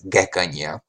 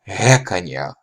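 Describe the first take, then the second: First: It begins with a hard g stop sound. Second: It begins with a breathy fricative sound. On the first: "The first pronunciation is with the just the G" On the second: "the voiced velar fricative used as an alternate"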